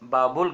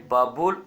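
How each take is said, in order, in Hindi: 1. यह नाम 'Baabul' की तरह बोला जाता है, जो 'bul' पर खत्म होता है। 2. यह नाम 'Baabul' की तरह बोला जाता है, जो 'bul' पर खत्म होता है।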